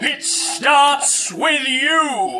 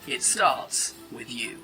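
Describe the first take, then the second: First: It is read with moderate energy. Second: It is read with low energy.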